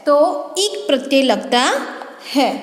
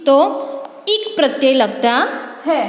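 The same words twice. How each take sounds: The two takes are said the same way.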